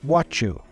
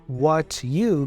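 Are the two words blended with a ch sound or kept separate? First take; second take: blended; separate. First: The t and y blend into ch. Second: The t and y are said separately.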